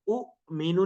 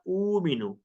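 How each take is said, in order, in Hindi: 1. पहला स्वर झटके के साथ छोटा कर दिया जाता है। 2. पहला स्वर आराम से खींचा जाता है। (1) "इसको उ मीनू नहीं कहना" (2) "इसको पढ़ना ऊ मीनू"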